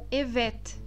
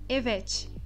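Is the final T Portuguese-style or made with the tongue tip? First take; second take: tongue tip; Portuguese-style. First: The final T is made with the tongue tip. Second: The final T sounds like a Portuguese T. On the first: The speaker calls it right. "um T que será pronunciado na ponta da língua" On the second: The speaker calls it wrong. "e não evet"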